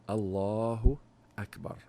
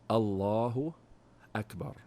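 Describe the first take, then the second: The two takes are said the same way.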